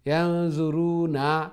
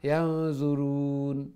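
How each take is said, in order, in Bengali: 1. শব্দটি একটি স্বরধ্বনি দিয়ে শেষ হয়। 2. শব্দটি ব্যঞ্জন n দিয়ে শেষ হয়।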